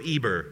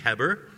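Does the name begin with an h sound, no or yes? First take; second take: no; yes. First: The name begins with a vowel sound. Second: The name begins with an h sound. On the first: The speaker calls it wrong. "we go Eber" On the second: The speaker calls it right. "It's actually Heber"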